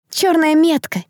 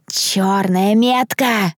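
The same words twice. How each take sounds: First: High, startled exclamation; awed murmur. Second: Very slow, stretched words; awed drawn-out echo. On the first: Onlookers seeing the black mark, awed exclamation. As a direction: gasp it in fearful awe. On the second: Onlookers round the black envelope, slow awed echo. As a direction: spread the dread word slowly. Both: A narrator's reading. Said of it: "зашептались вокруг".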